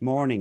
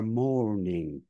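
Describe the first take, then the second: First: The vowel is short, sounding like morning. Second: The vowel is drawn out like a diphthong. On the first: The speaker calls it wrong. "truncate it and say, oh, well, that's morning as well" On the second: The speaker calls it right. "to say it properly is more like mourning"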